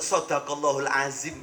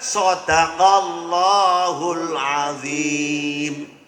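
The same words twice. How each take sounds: First: The Arabic sounds are articulated loosely and inexactly. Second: The Arabic sounds are articulated carefully and exactly. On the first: The speaker calls it wrong. "kalimat sadaqallahul azim kuwi salah ucap wong ra pernah ngaji" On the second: The speaker calls it right. "sing bener"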